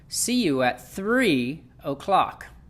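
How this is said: The word three is stretched and stressed. The speaker calls it right. "Let's say we were going to stress this word right here, three"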